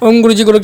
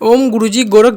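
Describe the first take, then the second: First: The words are recited quickly and run together. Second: The words are recited slowly and clearly. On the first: This is how it should be done in practice. "ऐसे ही बोलना पड़ेगा तुम्हें भी तेज तेज" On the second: It is said so the listener can follow. "मैंने आराम से इसलिए बोला ताकि तुम समझ सको"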